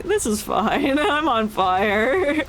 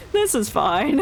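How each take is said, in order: First: Calm meme voice. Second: Laughing. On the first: Retold or imitated. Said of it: "This guy in the corner, like". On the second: Real, not acted. Laughing at the ship exploding.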